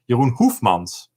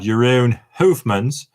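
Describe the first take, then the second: First: The name is said with a Dutch pronunciation. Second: The name is said with an English pronunciation. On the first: The speaker calls it right. "I'm gonna pronounce it in the Dutch way" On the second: The speaker calls it wrong. "So not"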